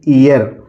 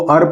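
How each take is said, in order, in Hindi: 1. यह शब्द ee स्वर के साथ बोला गया है। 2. यह शब्द er स्वर के साथ बोला गया है। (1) "इसको दोस्तों हम पढ़ेंगे ईयर" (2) "हम इसको अर पढ़ेंगे"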